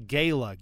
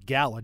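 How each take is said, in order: First: "Gala" said as gay-la, long A like in "day"; "Gala" with the first vowel as in "say": GAY-luh. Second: "Gala." said as gal-la, short A like in "cat"; "Gala." with the first vowel as in "pal": GAL-uh. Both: Shown as a demonstration. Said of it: "Do you guys say gala or gala".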